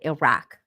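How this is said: It is said with a Western English pronunciation. The speaker calls it wrong. "they don't call it Iraq"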